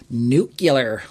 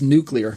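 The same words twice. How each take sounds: First: The middle sounds like 'cue-lar', as in nucular. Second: The middle sounds like 'clee-ar', as in nuclear. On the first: The speaker calls it wrong. "like Homer Simpson once said" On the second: The speaker calls it right. "It's nuclear"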